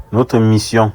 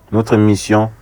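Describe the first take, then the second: No difference in how they are said.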